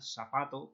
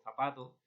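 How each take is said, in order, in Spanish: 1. La palabra empieza con un sonido s. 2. La palabra empieza con un sonido th.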